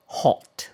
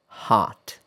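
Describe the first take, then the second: First: Hot with rounded British o. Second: Hot with open American ah. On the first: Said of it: "I'll say the word in two different ways". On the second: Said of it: "I said the British pronunciation first". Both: Shown as a demonstration.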